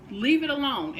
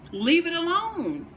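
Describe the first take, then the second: First: "Leave it alone" said firmly, a touch less pushed; firm repeat. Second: High, slow, forceful LEAVE it alone; emphatic command. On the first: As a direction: settle the point, steady and firm. Repeats the command more evenly. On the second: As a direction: slam the door on the idea, drawn out. Ranting about immature partners. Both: Real, not acted.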